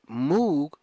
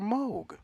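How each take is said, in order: First: It uses the popular, commonly heard pronunciation. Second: It uses the family's own pronunciation of the name. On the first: It is an accepted nickname. "Let Moog be the nickname" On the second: It is the real name. "the nickname for Moog"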